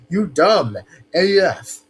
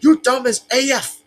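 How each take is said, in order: First: It is said in the speaker's ordinary voice. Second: It is said in a put-on character voice.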